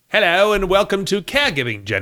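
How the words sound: It is spoken in a British, slightly Cockney accent. "we should do a whole episode in British accent ... It's a little Cockney"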